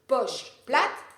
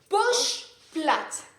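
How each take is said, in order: First: It is said at a quicker, accelerated pace. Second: It is said at a slower, unhurried pace.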